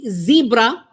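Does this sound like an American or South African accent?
American. It is said in an American accent.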